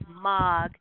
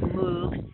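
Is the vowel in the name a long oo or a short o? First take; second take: short o; long oo. First: The vowel is a short o sound. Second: The vowel is a long oo sound. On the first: This is how the company's name is actually said. The speaker calls it right. "but it's Mog" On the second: This is how the name looks when read from its spelling. The speaker calls it wrong. "It looks like Moog"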